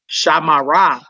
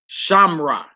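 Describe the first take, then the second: First: A full vowel is kept in the middle. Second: The middle vowel is dropped out. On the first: The speaker calls it wrong. "Instead of saying Shamara" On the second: The speaker calls it right. "you say Shamra"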